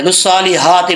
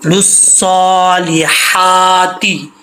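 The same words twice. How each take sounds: First: लुस्सौलिहाती said quickly with an ordinary हा; common mistake. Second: लुस्सौलिहाती very slow, long held vowels, thin throaty हा; correct recitation. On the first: Teacher shows the mistake people make, careless reading. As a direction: run through लुस्सौलिहाती casually, short vowels, plain h. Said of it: "यहाँ पर लोगों की mistake आती है". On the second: Teacher fixes the common mistake, slow correct recitation. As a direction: chant लुस्सौलिहाती slowly, stretching सौ, हा and ती. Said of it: "ये मिस्टेक आपने ठीक करनी है". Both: Shown as a demonstration.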